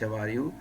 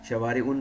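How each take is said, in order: First: The word ends on a vowel without n. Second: The word ends with an added n sound. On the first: The speaker calls it right. "बल्कि शवारिउ" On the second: The speaker calls it wrong. "शवारिउन नहीं पढ़ेंगे"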